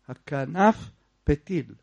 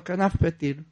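First: The two words are kept apart with a break. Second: The two words are run together without a break. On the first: The speaker calls it right. "צריך להיזהר" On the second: The speaker calls it wrong. "אז אותו פה עשה לשתיהם. לא שם רווח בין הדבקים"

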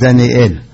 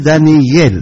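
First: The ending is sounded as a separate 'el'. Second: The aleph is silent, ending blends as 'yel'. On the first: The speaker calls it wrong. "זה טעות היום, טעות מפורסמת, שאומרים דניאל" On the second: The speaker calls it right. "דניאל אומרים דניאל, לא אל"

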